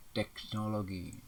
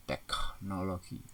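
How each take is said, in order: First: "Teknologi" with a plain K and G; slow, careful "Teknologi"; standard pronunciation. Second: "Teknologi" with breathed KH, "tekhnologi"; slow "Teknologi" split after tekh; nonstandard pronunciation. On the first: Teacher models standard word, slow tek-no-lo-gi. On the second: Teacher shows wrong form, drawn-out tekh-nologi. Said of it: "tidak baku". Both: Shown as a demonstration.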